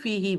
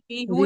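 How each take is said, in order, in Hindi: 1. दूसरा शब्द 'i' स्वर पर खत्म होता है। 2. दूसरा शब्द 'u' स्वर पर खत्म होता है। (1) "फिर हम फी ही बोलते हैं।" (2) "नहीं बोलते"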